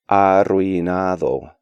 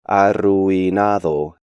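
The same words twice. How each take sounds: First: The u and i form one syllable. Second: The u and i form two syllables. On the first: The speaker calls it right. "when they should be pronounced more like" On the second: The speaker calls it wrong. "break these diphthongs up"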